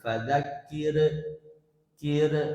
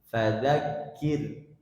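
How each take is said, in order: First: The final r bounces with an echoing release. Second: The final r is thin and smooth. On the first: The speaker calls it wrong. "Jangan membaca ro sukun itu memantul. ... keliru" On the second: The speaker calls it right. "dibaca tipis"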